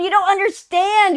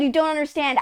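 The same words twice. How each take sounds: First: "you don't understand" pitched high and louder, "don't" punched; emphatic insistence. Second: Said in the usual way. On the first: Real, not acted. Telling viewers about the game, emphatic high "don't". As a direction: hammer "don't" hard and high.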